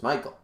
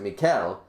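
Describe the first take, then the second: First: The name is said with English pronunciation. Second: The name is said with French pronunciation. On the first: "that's not how you say my name. My name is Michael" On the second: "in French it's Michael... But they will pronounce it Mikel"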